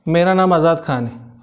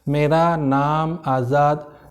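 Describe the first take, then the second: First: It is spoken very fast. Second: It is spoken very slowly. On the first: "मेरा speed बहुत तेज था" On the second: "आपका speed बहुत कम है"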